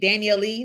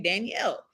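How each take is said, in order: First: The name ends with an extra 'ee' vowel. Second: The name ends with no extra vowel. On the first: The final E is read as a separate sound. The speaker calls it wrong. "do you say Danielle E? No" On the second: The final E is silent. The speaker calls it right. "you say Danielle"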